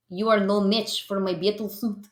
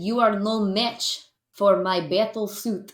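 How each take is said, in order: First: Put-on mild Russian villain accent; a hint of a Russian comic villain; Russian accent, lightly voiced. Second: Slower, clearer Russian villain line; a touch of a Russian villain, slowed down; repeated slower Russian accent. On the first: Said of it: "I'm leading into the Russian accent". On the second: Pretend. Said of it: "so I said".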